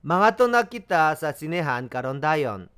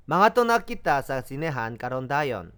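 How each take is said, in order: First: Teacher repeats the Cebuano sentence for students, slow and clear; slow Cebuano repetition. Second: Teacher echoes the model a second time, slow; slow Cebuano repetition, softer. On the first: Syllable by syllable, slow and clear. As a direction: slowly sound out "Mangadto na kita sa sinehan karon dayon". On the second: Gentle slow repeat. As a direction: say "Mangadto na kita sa sinehan karon dayon" slowly again, stress on "Mangadto". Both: Shown as a demonstration. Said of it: "비사야로 들어보겠습니다".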